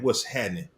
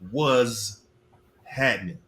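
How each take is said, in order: First: The first word keeps its t sound. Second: The first word is said with a z sound.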